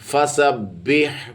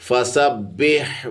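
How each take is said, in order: Both takes have the same delivery.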